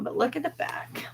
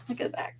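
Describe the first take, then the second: First: Said in the usual way. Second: Soft whispered aside, look at the back. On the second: Real, not acted. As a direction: breathe it out under her voice. Repeats it whispered.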